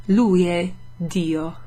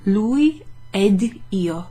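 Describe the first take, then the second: First: Slow "Lui è Dio", D attached to "Dio"; "è" kept apart from "Dio", drawn out; D starting Dio. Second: Slow "Lui ed io", D attached to "ed"; "ed" and "io" as separate words, drawn out; D closing ed. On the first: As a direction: open "è", then begin "Dio" on the D. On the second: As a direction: sound the D at the end of "ed", then start "io". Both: Shown as a demonstration. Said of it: "depends on how you pronounce the D".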